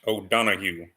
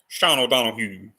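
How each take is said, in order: First: Said in the usual way. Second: Badly faked English or Scottish accent; amateur stab at a Scottish accent; terrible Scottish accent. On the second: Shown as a demonstration. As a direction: try a Scottish lilt and miss. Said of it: "that was a really terrible English or Scottish accent".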